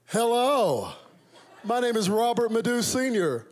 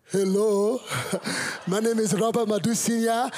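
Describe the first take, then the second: First: High, loud polished American hello; American accent. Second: Put-on loud, high Nigerian-accented introduction. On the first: Pretend. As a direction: announce yourself proudly in an American accent. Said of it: "it did not go down like that". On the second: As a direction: imitate a proud Nigerian father introducing himself. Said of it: "my Nigerian father woke up the next morning and said".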